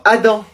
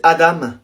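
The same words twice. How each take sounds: First: "Adam" said the French way, ending in a nasal "an"; "Adam" as a French name; French reading. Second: "Adam" said the way the student prefers, as the corrected version; "Adam" as its owner says it; corrected name. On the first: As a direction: read "Adam" like the teacher from the list, French style. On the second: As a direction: give "Adam" the student's own pronunciation. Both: Shown as a demonstration. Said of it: "Je préfère qu'on dise Adam".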